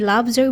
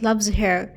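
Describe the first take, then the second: First: The h in 'her' is dropped. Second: The h in 'her' is pronounced. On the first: The speaker calls it right. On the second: The speaker calls it wrong.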